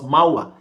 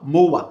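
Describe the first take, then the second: First: The vowel glide starts with an open a sound. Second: The vowel glide starts with a rounded o sound. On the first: The speaker calls it right. "It is what? Mawa" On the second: The speaker calls it wrong. "Some people will be calling it mowa"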